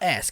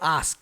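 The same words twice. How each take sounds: First: It is said in an American accent. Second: It is said in a non-American accent. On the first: "Não fala ask" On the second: "de acordo com o sotaque aí do Pantera Negra"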